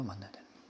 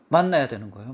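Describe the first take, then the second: First: Soft echo. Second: Said in the usual way. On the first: Shown as a demonstration.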